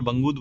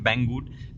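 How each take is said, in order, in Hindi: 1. पहला स्वर 'bun' जैसा लगता है, अंत नरम। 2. पहला स्वर 'bat' जैसा लगता है, अंत कड़ा। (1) "मैं उसको हर बार बंगूद बोल देता हूँ" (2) "उसका एक्चुअल प्रोनाउंसिएशन है बैंगूड"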